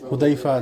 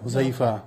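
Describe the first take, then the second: First: The middle consonant is a d-like sound. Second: The middle consonant is a z-like sound. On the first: "কেউ উচ্চারণ করে আর কি, যেমন হুদাইফা" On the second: "যেমন হুজাইফা"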